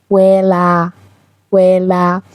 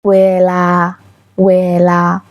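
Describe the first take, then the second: First: ویلا in Thai, both vowels long; Thai word demo. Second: ویلا held long on both vowels; long Thai pronunciation. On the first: Teacher models ویلا for students. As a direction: stretch ویلا's vowels. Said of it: "به معنای وقت یا زمانه". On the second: Teacher repeats ویلا long for students. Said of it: "باید طولانی تلفظ بشه". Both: Shown as a demonstration.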